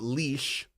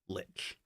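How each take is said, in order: First: It is said with a German pronunciation. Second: It is said with an English pronunciation. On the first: The speaker calls it wrong. "which is actually a German pronunciation" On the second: The speaker calls it right. "If you're saying it in English, you say lich"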